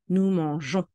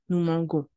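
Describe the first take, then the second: First: The g is soft, like in 'beige'. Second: The g is hard, like in 'go'. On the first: The speaker calls it right. "mais nous voulons" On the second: The speaker calls it wrong. "Sans la lettre E, la prononciation serait"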